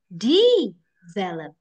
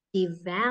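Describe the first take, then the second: First: The stress is on the first syllable. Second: The stress is on the second syllable. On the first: The speaker calls it wrong. "Kita taruh depan, aneh" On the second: The speaker calls it right. "di sini V-nya syllable yang kedua"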